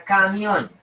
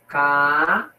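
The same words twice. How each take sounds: First: Said in the usual way. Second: "Camión" split into ca, mi, ón with pauses; "Camión" broken slowly into its syllables. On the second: Shown as a demonstration. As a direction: separate each syllable of "Camión", drawn out.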